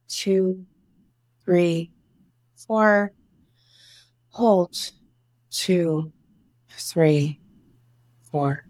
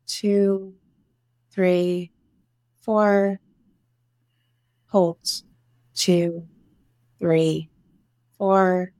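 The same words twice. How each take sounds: The two takes are said the same way.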